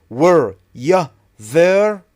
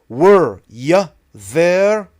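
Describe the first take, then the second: The two takes are said the same way.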